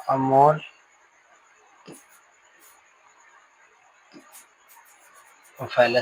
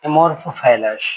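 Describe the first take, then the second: First: Amorphophallus drawn out very slowly, syllable by syllable. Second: Said in the usual way. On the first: Shown as a demonstration. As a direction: stretch amorphophallus into slow separate syllables. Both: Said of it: "जैसे हम लोग पढ़ते हैं".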